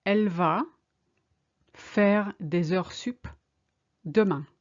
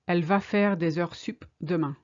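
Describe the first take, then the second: First: Slowly, with pauses between chunks; slow, chunked. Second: Said in the usual way. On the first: Shown as a demonstration. Teacher modelling the sentence for learners, slowly chunked. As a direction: break it up for learners. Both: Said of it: "She's going to work overtime tomorrow".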